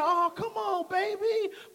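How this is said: It is said in a loving tone.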